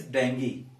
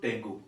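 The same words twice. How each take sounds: First: 'dengue' ending in 'ee', like 'DENG-gee'; correct pronunciation. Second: 'dengue' ending in 'oo', like 'deng-goo'; mispronunciation. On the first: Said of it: "It is not dengue". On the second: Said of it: "It is not". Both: Shown as a demonstration.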